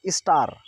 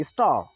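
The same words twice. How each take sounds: First: स्टार with a clear final R; as written. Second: स्टार ending in an open "aa"; American silent R. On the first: Teacher reading the spelling, R sounded. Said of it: "स्टार की जगह". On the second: Teacher modelling for students, silent R. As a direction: drop the R of स्टार. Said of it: "इस तरह से बोलेंगे". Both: Shown as a demonstration.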